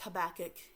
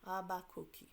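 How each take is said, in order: First: The name is said with English pronunciation. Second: The name is said with Portuguese pronunciation. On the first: "it's Habakkuk in English" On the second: "in Portuguese we pronounce it Habacuque"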